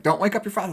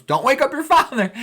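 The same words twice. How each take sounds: First: Higher-pitched mock warning at normal level; a lightly voiced mother's warning; imitating mom, hushed. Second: Much higher and louder, ironic yell; mock loud mom. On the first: Mother warning kids at the door, lightly voiced. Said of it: "He's like". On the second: Mother yelling ironically on the stairs, mock loud. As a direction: bellow the warning so it wakes him. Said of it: "She goes".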